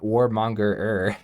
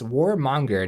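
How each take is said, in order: First: The word ends with an extra repeated 'er' syllable. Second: The word ends with a single 'ger' syllable. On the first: The speaker calls it wrong. "not Warmonger-er" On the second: The speaker calls it right. "It's Warmonger"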